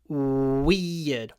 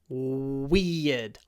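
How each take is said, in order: First: The first sound is a clear w. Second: The same.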